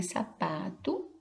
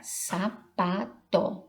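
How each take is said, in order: First: Said in the usual way. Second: SAPATO split into three separate syllables, sa, pa, tó. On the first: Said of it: "com essa palavrinha". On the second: Shown as a demonstration. Teacher showing children the parts of sapato, syllable by syllable. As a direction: say sapato in slow, detached syllables with a full final vowel. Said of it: "Então, aqui está".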